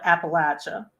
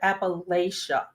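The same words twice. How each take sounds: First: It is said with the local regional pronunciation. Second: It is said with the outsider's pronunciation. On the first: The speaker is from the region. "if you live in the region, you're going to call it" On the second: The speaker is from outside the region. "If you typically live outside the region"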